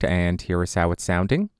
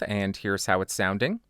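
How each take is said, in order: First: The voice is very close, with boomy bass. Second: The voice is slightly farther, with less bass. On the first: "Now I am right on top of the microphone to exaggerate the proximity effect" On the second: "Now I'm about six inches away from the microphone with it pointed at the corner of my mouth"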